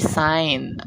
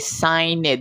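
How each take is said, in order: First: The ending is a plain d sound. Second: The ending is said as an extra syllable. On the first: The speaker calls it right. "hindi natin pino-pronounce yung ed" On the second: The speaker calls it wrong. "Hindi naman pwede signed"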